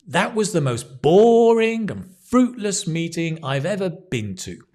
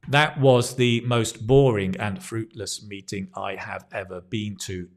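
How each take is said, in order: First: Key words are stressed and lengthened. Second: It is read flat, with no words stressed. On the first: The speaker calls it right. "but if we do it with stress, notice how it changes" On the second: The speaker calls it wrong. "Without stress, it's like this"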